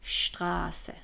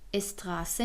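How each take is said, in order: First: The word begins with a sh sound. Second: The word begins with an s sound. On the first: The speaker calls it right. "میگیم شتراسه" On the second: The speaker calls it wrong. "اینجا اس استراسه نمیگیم"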